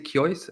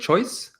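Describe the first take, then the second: First: The first consonant has a y-glide after it. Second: The first consonant has no y-glide after it. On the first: This is believed to be the ancient way of saying it. "like a kya, like a K Y" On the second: This is how most people say it today. "most people just go for the uh, K sound"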